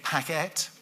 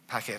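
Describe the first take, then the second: First: The second syllable has a full 'e' vowel. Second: The second syllable has a weak, reduced vowel. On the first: The speaker calls it wrong. "we don't actually say packet" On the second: The speaker calls it right. "we say packet"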